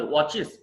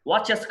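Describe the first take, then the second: First: వాచెస్ as "watch-iz"; "-iz" ending. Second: వాచెస్ as "watch-ess"; wrong plural ending. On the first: Teacher correcting learners' plural, వాచెస్ as "watch-iz". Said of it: "ఇజ్". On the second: Teacher showing learners the mistake, వాచెస్ as "watch-ess". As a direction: end వాచెస్ on open e and hissed s. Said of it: "కాదు". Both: Shown as a demonstration.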